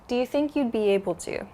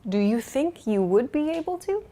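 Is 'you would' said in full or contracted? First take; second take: contracted; full. First: You would is contracted to you'd. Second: You would is said as two full words.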